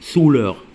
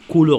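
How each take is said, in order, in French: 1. Le mot commence par un son s. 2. Le mot commence par un son k. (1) "ما قلتش souleur" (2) "علاش قلت هنايا couleur"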